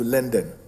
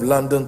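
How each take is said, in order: First: London is said with an altered street-style pronunciation. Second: London is said with its usual pronunciation. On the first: "to make it even more, you know, street savvy" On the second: "changed the pronunciation of London"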